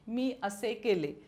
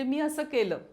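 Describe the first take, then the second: First: The words end in a clear 'e' sound. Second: The words end in a nasal 'a' sound. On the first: This is the formal written form. "असं मी म्हणत नाही" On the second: This is the everyday spoken form. "असं मी म्हणते"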